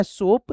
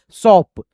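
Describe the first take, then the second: First: सोप with a closed "oh" vowel; wrong pronunciation. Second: सॉप with open "aw", loud; correct pronunciation. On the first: Teacher shows students the wrong pronunciation, सोप with "oh". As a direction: say सोप with rounded long "o". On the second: Teacher corrects it for students, सॉप loud with open "aw". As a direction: punch सॉप with an open vowel. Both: Shown as a demonstration. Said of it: "तो ये गलत उच्चारण हो गया".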